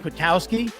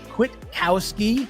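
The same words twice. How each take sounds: First: The name is said fast, run together. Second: The name is said slowly.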